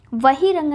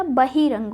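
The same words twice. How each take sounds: First: The mistaken वही रंग, v at the start; वही रंग, opened on v as two words; wrong form वही रंग. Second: बहिरंग as one word, opened on b; b, not v, starting बहिरंग; correct form बहिरंग. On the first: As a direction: say वही रंग with an initial v sound. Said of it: "वही रंग नहीं होता". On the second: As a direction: say बहिरंग with an initial b. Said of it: "बहिरंग होता है". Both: Shown as a demonstration.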